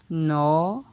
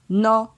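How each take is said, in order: First: The syllable has a rising tone. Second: The syllable has a mid tone. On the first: "Ton montant" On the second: "Ton moyen"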